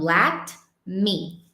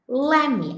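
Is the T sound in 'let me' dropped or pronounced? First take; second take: pronounced; dropped. First: The T is clearly pronounced, said slowly. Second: The T is dropped, sounding like leme. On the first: "pausadamente, né? Botando aqui o T mesmo, marcando" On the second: "a tendência é que o nativo vai pronunciar leme"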